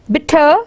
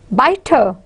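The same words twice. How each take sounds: First: "bitter" with a short i, as in bit; short stressed vowel. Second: "biter" with the long i, as in bite; long stressed vowel. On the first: Teacher contrasting vowel length, "bitter" with its short i. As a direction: say "bitter" with a quick first vowel, bit-ter. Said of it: "for keeping the stress vowels short". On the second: Teacher contrasting vowel length, "biter" with its long i. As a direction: say "biter" with the first vowel like "eye". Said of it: "can become short". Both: Shown as a demonstration.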